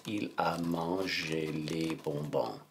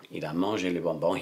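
First: Slow, stretched French at writing speed; slow dictation. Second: Said in the usual way. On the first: Shown as a demonstration. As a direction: draw out each word as you write. Dictating the sentence while writing it.

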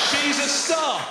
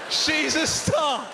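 No difference in how they are said.

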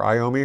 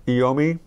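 First: Iommi said as eye-OH-mee; first syllable of Iommi like "eye"; eye-OH-mee pronunciation. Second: Iommi said as ee-OH-mee; first vowel of Iommi like "ee"; ee-OH-mee pronunciation. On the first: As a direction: open Iommi with a long I. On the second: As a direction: open Iommi with an "ee" sound. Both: Shown as a demonstration. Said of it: "however you wanna pronounce his name".

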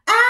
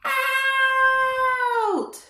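First: Louder shout of out; children's host shouts out to free the dinosaur; louder call. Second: Called out. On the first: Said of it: "even louder". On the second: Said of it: "let's say out on the count of three". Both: Shown as a demonstration.

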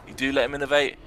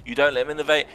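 First: Excited stress on do. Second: Don't punched high and loud; loud excited stress on don't. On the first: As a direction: do punched as the contrast word. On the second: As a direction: hit the word don't hard, like a coach's warning. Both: Real, not acted. If/if-not contrast of outcomes.

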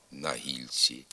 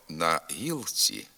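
First: «на гільці» with л palatalized before ці; softened л. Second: «на гілці» slowly, with л hard before ці; as written. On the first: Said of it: "а вимовляємо". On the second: Teacher reading the spelling, hard л in «на гілці». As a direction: say «на гілці» with an unsoftened л. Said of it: "Пишемо". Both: Shown as a demonstration.

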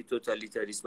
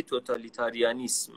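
First: توتالیتاریسم said as to-ta-li-ta-rism, with no -an- before -ism; the wrong form. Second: توتالیتاریانیسم said to-ta-li-ta-ri-a-nism, with the full -ian- before -ism; the correct form. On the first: Telling the host the word he long misused, saying توتالیتاریسم as totalitarism. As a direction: say توتالیتاریسم the common mistaken way, totalitarism. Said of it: "نباید بگی توتالیتاریسم".

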